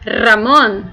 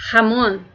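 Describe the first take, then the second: First: "Ramon" with a strong trilled r at the start; "Ramon" said as the person's name with a rolled r; Spanish name Ramón. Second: "Ramon" with a harsh throaty h at the start, like jamón; "Ramon" said as hamón, the ham; Spanish jamón. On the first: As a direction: roll the r in "Ramon" firmly. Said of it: "pra pronunciar o nome de alguém, você vai dizer Ramon". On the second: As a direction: open "Ramon" with a rasping back-of-throat h sound. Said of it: "pra pronunciar a palavra presunto, você vai dizer". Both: Shown as a demonstration.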